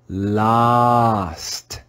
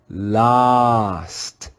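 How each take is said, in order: First: The vowel is a short O sound. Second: The vowel is a short O sound.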